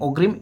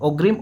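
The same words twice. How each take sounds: The two takes are said the same way.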